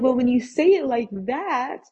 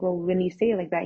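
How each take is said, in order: First: Higher, louder exclamation, stressing THAT; alarmed concession. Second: Said in the usual way. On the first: Retold or imitated. Conceding to dad's psychopath warning, comically alarmed. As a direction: give in with mock alarm on "say it like that".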